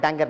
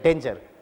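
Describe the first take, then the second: First: It sounds like d added to anger. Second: It sounds like dain-jer with a soft g. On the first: The speaker calls it wrong. "Sir एंगर के सामने डी लगाने से डैंगर होता है sir. मैं कहा डैंगर नहीं है" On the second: The speaker calls it right. "डेंजर है"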